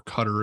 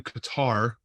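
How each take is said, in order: First: "Qatar" pronounced like "cutter", stress up front; alternative Qatar pronunciation. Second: Said in the usual way. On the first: Shown as a demonstration. Podcaster offering the proper local name, "Qatar" said like "cutter". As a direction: say "Qatar" as KUT-ter, the supposedly proper way. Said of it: "I guess that's the proper, uh, uh, pronunciation". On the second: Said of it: "I guess that's the proper".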